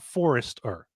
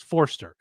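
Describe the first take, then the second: First: The name is said with three syllables. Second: The name is said with two syllables. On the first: The speaker calls it wrong. "It's not Forrester" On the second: The speaker calls it right. "is two syllables"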